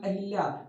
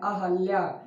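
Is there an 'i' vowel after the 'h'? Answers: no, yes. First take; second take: yes; no. First: An 'i' vowel is heard after the 'h'. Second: No 'i' vowel is heard after the 'h'. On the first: The speaker calls it wrong. "ना कि अहिल्या" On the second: The speaker calls it right. "हा में मात्रा नहीं है"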